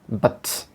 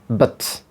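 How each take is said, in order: First: The vowel is a very short, reduced schwa. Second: The same.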